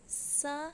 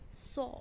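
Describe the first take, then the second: First: The s sound is light and thin. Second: The s sound is heavy and full. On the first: The speaker calls it wrong. "मत पढ़िए इसे" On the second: The speaker calls it right. "सौ मोटा और ऊंचा हर्फ है ये"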